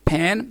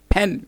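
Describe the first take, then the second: First: फैन said as "pan", with the open A of "cat"; फैन with an open short A, not the E of "pen". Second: फैन said as "pen", with the E of "bed"; फैन with short E, not the A of "pan". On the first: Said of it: "ए vowel की जगह पे". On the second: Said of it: "ई vowel को use करते". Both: Shown as a demonstration.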